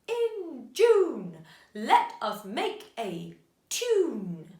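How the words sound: It is said in a growling wolf voice. "Can you say it in a wolf's voice?"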